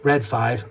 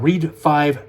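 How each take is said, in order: First: The first word rhymes with red. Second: The first word rhymes with reed. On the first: "It's either way" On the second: "also can be pronounced Reed five"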